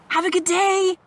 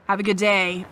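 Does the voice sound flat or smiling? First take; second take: smiling; flat. First: It is said warmly, with a smile. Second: It is said in a flat, plain tone. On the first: The wish sounds sincere. The speaker calls it right. "having that sound in your voice" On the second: The wish does not sound sincere. The speaker calls it wrong. "a plain tone or whatever"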